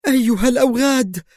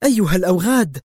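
First: High, trembling scream; screamed higher than the first cry. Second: Sharp cry at the thugs; a mild cry. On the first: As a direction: scream it at the thugs. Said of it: "وهي تكرر صرختها". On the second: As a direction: call them scoundrels, raised. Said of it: "وهي تهتف". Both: A narrator's reading.

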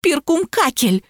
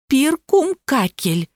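First: High, drawn-out plaintive whine; sobbing. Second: Slow, measured and higher-pitched; obedient repetition. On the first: Lapulya naming the lost one to police, high tearful drawl. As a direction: stretch «Перкумкакель» into a mock tearful wail. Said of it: "всхлипнула Лапуля". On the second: Barbie repeating the name for the policeman, slow and obedient. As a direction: spell out «Перкумкакель» slowly and dutifully. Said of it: "послушно повторила Барби". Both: A narrator's reading.

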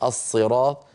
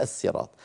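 First: "الصراط" with a heavy, thickened ṣād; emphatic s. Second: "الصراط" with a light, plain s; thin the ṣ of "الصراط" down to an s; original sīn. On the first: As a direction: thicken the first sound of "الصراط" to a dark ṣ. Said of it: "أغلبهم كانوا يفخمون فيقولون". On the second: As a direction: say "الصراط" as as-sirāṭ, s not ṣ. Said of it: "وإلا فهي". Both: Shown as a demonstration.

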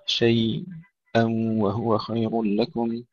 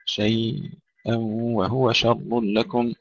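First: شيئًا slowly, with a small catch on its end; slow recitation variant. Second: شيئًا merged into وهو with a nasal hum; slow nasal merge. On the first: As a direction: recite شيئًا with a brief stop. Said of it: "خلاد له السكت والإظهار". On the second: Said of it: "مع الإدغام بغنة". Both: Shown as a demonstration.

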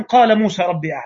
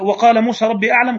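First: قال begun straight on "qala" with no wa; reading without waw. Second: وقال said with the wa clearly at the start; reading with waw. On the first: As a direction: drop the wa and open on قال. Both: Shown as a demonstration. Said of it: "ولا هقول زي المكي".

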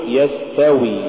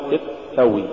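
First: Said in the usual way. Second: تستوي with the س stopped short; cut-off sin. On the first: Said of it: "قل يستوي". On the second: Shown as a demonstration. Teacher warning against an error, cut-off س in تستوي. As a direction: choke off the hiss of س in تستوي. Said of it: "ولا تقل".

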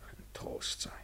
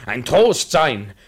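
First: Whispered echo. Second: A comfort. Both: Acted. Repeated vow, then echoed.

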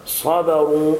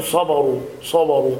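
First: صبروا with heavy ص, then light "ba"; correct thin ba. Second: صبروا with dark heavy ب, "soboru"; thickened ba. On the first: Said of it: "ولكن الصواب". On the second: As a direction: imitate the error, letting ص darken the ب of صبروا. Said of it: "بتفخيم الباء". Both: Shown as a demonstration.

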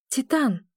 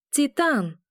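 First: Calling his name across the distance. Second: High shout of the name Титан. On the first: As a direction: call out to him. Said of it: "зову я его". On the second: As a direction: yell Титан desperately. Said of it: "кричу, но он меня не слышит". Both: A narrator's reading.

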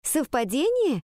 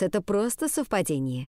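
First: High, disbelieving "совпадение"; incredulous echo question. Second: Even statement with a falling end; dismissive reassurance. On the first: Pupil querying the teacher's explanation, incredulous. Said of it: "переспросила Ариадна". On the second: Teacher brushing off the hidden message, dismissive reassurance. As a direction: settle "совпадение" as a plain fact. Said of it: "укоризненно покачала она головой". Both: A narrator's reading.

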